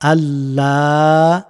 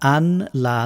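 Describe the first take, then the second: First: The n merges into a doubled l sound. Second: The n is pronounced separately before la. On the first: The speaker calls it right. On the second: The speaker calls it wrong.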